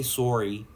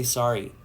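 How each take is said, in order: First: "sorry" as "SORE-ee"; rejected Canadian pronunciation. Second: "sorry" as "SAH-ree"; own pronunciation. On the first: Streamer shows what they don't say, "sorry" as "sore-ee". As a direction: say "sorry" with a round or vowel. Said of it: "I don't say sorry". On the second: Streamer shows how they say it, "sorry" as "sah-ree". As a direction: say "sorry" with an open ah. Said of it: "I say sorry". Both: Shown as a demonstration.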